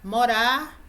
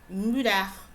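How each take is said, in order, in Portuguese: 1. Falada com sotaque do português brasileiro. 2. Falada com sotaque do português europeu. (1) "enquanto nós falamos" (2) "eles falam"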